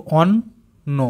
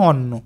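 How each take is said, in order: First: অন্ন cut into its two syllables; split syllables. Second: Said in the usual way. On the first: Shown as a demonstration. Teacher splitting অন্ন into syllables for pupils. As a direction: say অন্ন broken apart, ন held. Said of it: "আমরা কেটে কেটে উচ্চারণ করব". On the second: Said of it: "একসাথে ভালো করে বললে".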